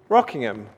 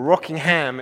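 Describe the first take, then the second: First: The name is said the way an immigrant would. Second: The name is said the way locals say it. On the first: The speaker is an immigrant to the town. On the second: The speaker is a native of the town.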